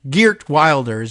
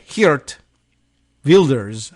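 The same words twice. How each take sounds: First: The name is pronounced with English sounds. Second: The name is pronounced with Dutch sounds. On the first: "in our anglicized version" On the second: "I think, is how they would say"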